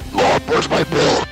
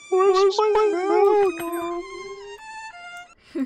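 First: It is said in an angry tone. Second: It is said in a sad tone.

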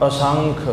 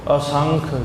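Both takes have the same delivery.

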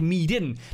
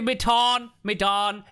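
First: The first vowel sounds like 'ee'. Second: The first vowel sounds like 'eh'. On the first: The speaker calls it wrong. "Es wird nicht Miden ausgesprochen" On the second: The speaker calls it right. "So wie Medan"

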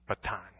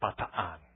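First: It is said the familiar, commonly known way. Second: It is said the actual local way. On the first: This is how most listeners know the name. The speaker calls it wrong. "We know it as Bataan" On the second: This is how the name is really pronounced. The speaker calls it right. "The actual pronunciation is Bataan"

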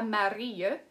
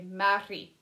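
First: The final vowel ends with a y-glide. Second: The final vowel is a plain ee sound. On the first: The speaker calls it wrong. "ce n'est pas Marie" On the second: The speaker calls it right. "c'est Marie"

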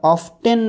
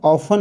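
First: The T sound is pronounced. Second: The T sound is silent. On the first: The speaker calls it wrong. "ऑफटेन नाही म्हणायचं" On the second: The speaker calls it right. "टी silent आहे"

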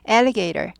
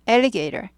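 No difference in how they are said.

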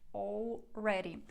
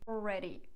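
First: The L sound is clearly pronounced. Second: The L sound is dropped.

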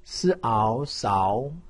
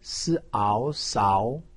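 No difference in how they are said.

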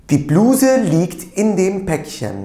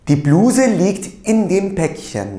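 The two takes are said the same way.

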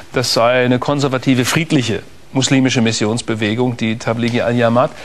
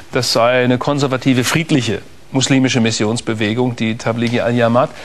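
No difference in how they are said.

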